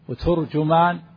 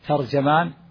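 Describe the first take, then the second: First: Both the t and the j take a u vowel. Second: Both the t and the j take an a vowel. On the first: "بضم التاء والجيم" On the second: "بفتح التاء والجيم"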